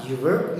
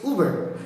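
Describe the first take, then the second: First: "verb" led by a "you" sound; wrong pronunciation. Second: "verb" led by a drawn-out "oo"; correct pronunciation. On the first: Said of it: "not verb". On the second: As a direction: say "verb" slowly as "oo-verb". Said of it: "it is verb". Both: Shown as a demonstration.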